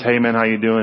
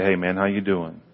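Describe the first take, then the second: First: It sounds quick and offhand, in passing. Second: It sounds warm and sincerely caring.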